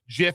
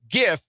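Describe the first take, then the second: First: It begins with a soft j sound. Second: It begins with a hard g sound. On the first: This names the peanut butter brand. "GIF is peanut butter" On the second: This names the moving image format. "GIF is the moving image"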